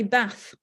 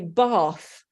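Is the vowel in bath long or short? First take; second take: short; long. First: A northern English accent with a short 'a' vowel. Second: A southern English accent with a long 'ar' vowel.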